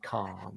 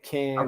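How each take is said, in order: First: It is said in a modern RP accent. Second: It is said in an American accent.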